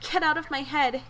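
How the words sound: It is read in a put-on character voice.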